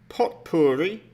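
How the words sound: It is said with an English pronunciation.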